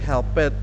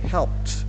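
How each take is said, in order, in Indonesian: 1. Akhiran itu adalah suku kata terpisah tambahan. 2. Akhiran itu adalah bunyi t yang pendek. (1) "we don't say help it" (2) "but we say helped. Pakai t"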